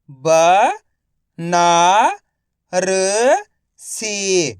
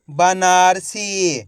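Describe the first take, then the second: First: Banarasi stretched out slowly, ब-ना-र-सी; slow syllable by syllable. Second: Said in the usual way. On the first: Shown as a demonstration. (धीरे-धीरे अक्षर-अक्षर बोलें)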